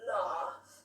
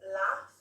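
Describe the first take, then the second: First: It is said with a standard RP vowel. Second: It is said with a Midlands vowel.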